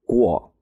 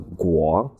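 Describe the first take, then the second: First: The syllable is said with the fourth tone. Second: The syllable is said with the second tone. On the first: "That's fourth tone" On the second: "second tone"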